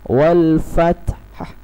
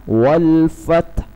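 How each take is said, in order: Both takes have the same delivery.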